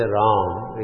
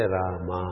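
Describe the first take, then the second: First: RAM drawn out as one syllable; single-syllable Ram. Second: RAMA split as Ra-ma, open final a; two-syllable Rama. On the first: Teacher demonstrating one syllable sound, Ram held as one. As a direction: close Ram on the m, no vowel after it. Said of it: "it is single syllable sound". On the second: Teacher showing the Telugu and Karnataka way, Rama in two syllables. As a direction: sound the last vowel of Rama fully. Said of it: "we make it two". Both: Shown as a demonstration.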